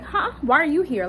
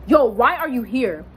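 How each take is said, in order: First: High-pitched startled "huh?"; mock shock. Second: Mildly imitating his instant attitude; a touch of disgust at an unwelcome visitor. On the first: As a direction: act taken aback, voice jumping up. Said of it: "kinda like a shock". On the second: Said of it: "automatic attitude, like he was disgusted".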